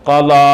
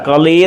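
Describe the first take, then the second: First: The word ends in a long 'aa' vowel. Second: The word ends in a long 'ee' vowel. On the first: The speaker calls it right. "അലിഫിൻ്റെ ഉച്ചാരണമാണ് നാം ഇവിടെ ഉച്ചരിക്കേണ്ടത്" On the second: The speaker calls it wrong. "ഖളീ എന്നല്ല വായിക്കേണ്ടത്"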